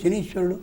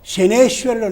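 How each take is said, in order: First: The vowel after 'Shan' is a long ee. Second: The vowel after 'Shan' is an e sound. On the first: The speaker calls it right. "శని ఈశ్వరుడు సవర్ణ దీర్ఘం అయితే శనీశ్వరుడు అవుతుంది" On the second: The speaker calls it wrong. "అది మరీ తప్పు"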